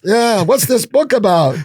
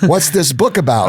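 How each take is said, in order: First: Much higher and slower, a hammed-up push for an answer; the rabbi insists in a big, high, drawn-out voice. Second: A lightly raised, polite hostess voice; the wife asks her question nicely, with a hint of mimicry; rabbi's wife. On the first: The rabbi presses the guest about his book, hammed up high and slow. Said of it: "the rabbi does the rabbi thing". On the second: At a Shabbat dinner, the rabbi's wife asks about the book, lightly voiced. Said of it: "the rabbi's wife goes".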